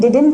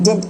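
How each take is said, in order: First: Both syllables are fully pronounced, did-nt. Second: The word is reduced to one short syllable. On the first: The speaker calls it wrong. "ये डिडंट नहीं होता" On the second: The speaker calls it right. "डेंट होता है basically"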